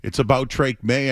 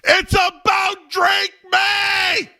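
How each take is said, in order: First: It is said at a calm volume. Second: It is shouted loudly. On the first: "I'll say it without yelling" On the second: "Do I need to say this loud for the people in the back?"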